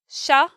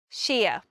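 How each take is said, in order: First: The suffix is a short reduced 'sha' sound. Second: The suffix is a full 'sheer' sound. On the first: "there are two pronunciations of the sheer. It's sha" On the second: "or sheer"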